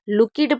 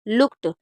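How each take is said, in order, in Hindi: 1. अंत में एक और अक्षर जुड़ जाता है। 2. यह शब्द एक अक्षर में बोला जाता है।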